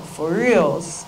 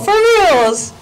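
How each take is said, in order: First: It sounds calm and casual. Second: It sounds excited and amazed. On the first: A mild acknowledgement of ordinary news. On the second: Astonishment at big news.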